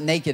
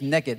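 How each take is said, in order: First: It is said in a standard accent. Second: It is said in a Texas accent.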